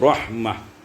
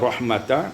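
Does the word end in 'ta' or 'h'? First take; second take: h; ta. First: The word ends with an 'h' sound. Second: The word ends with a 'ta' syllable. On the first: "menjadi rahmah" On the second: "Ketika diwakaf kepada kata rahmata"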